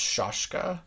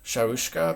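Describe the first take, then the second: First: The first vowel sounds like 'ah'. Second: The first vowel sounds like 'ow'. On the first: "it could be also just Shashka" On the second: "I usually say Shaushka"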